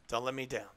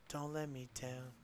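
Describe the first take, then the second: First: Said in the usual way. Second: Quiet plea. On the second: Real, not acted.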